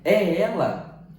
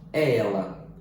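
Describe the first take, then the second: First: "É ela?" slow, higher and rising as a real question; question intonation. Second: "É ela" low and level, a simple statement; flat statement. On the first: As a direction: lift "É ela?" into a clear question. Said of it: "outro tipo de entonação à frase". (pergunta, tom ascendente) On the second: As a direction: state "É ela" plainly with a falling close. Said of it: "estamos simplesmente a dizer". (afirmação simples, tom descendente) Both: Shown as a demonstration.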